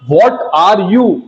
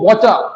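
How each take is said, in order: First: Each word is said fully and separately. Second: The words are run together into one reduced word. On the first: Standard language. The speaker calls it right. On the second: Informal slang. The speaker calls it wrong.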